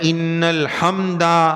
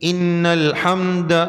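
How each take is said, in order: First: The final sound after the d is drawn out long. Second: The final sound after the d is kept short. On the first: The speaker calls it wrong. "बाज लोग पढ़ते हैं इन्नल हम्दा, दाल को खींचने का नहीं" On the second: The speaker calls it right. "उस पर जबर है"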